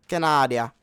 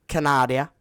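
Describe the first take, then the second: No difference in how they are said.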